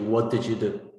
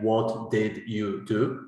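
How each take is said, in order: First: The words run together in connected speech. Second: Each word is said slowly and separately. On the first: "To have that connected speech" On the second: "they can sound ridiculous when they do that"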